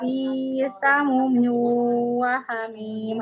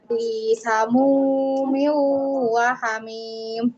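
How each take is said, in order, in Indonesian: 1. Vokal 'mu' pendek. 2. Vokal 'mu' dibaca panjang. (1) "Tadi terdengarnya" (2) "mu-nya panjang"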